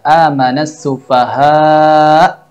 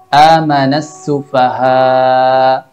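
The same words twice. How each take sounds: First: The final glottal stop is clearly heard. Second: The final glottal stop is weak and inaudible. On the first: The speaker calls it right. "Yang seharusnya dibaca" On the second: The speaker calls it wrong. "tanpa terdengar jelas suara hamzah"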